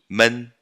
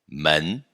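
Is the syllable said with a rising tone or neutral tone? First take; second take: neutral tone; rising tone. First: The syllable is said with a neutral tone. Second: The syllable is said with a rising tone. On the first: It marks the plural of people. "Tom neutro" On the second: It means door. "segundo tom"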